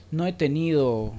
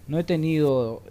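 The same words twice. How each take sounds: The two takes are said the same way.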